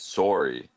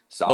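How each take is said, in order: First: It is said with a Canadian accent. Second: It is said with an American accent. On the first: "It's it's sorry in Canada" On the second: "in American English"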